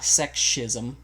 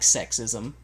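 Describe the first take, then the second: First: The word is pronounced in a distorted, unusual way. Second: The word is pronounced in the ordinary way. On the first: "pronounced incorrectly" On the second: "like sexism"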